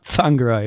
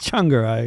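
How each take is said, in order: First: The name begins with a 'ts' sound. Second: The name begins with a 'ch' sound. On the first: The speaker calls it wrong. "it's not Tsvangirai" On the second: The speaker calls it right. "it's Changarai"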